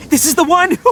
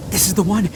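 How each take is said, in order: First: "this is the one" shouted out high and thrilled; excited. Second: Said in the usual way. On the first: Acted. Itto finding his beetle, thrilled high exclamation. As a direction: sell it like a jackpot.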